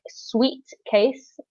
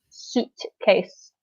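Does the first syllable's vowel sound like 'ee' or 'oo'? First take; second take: ee; oo. First: The first vowel sounds like 'ee' in 'sweet'. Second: The first vowel sounds like 'oo' in 'soon'. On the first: The speaker calls it wrong. "it's spelt like sweet case" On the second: The speaker calls it right. "but you pronounce it suitcase"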